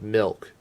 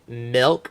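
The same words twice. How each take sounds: First: The vowel sounds like the i in bit. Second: The vowel sounds like the e in bed.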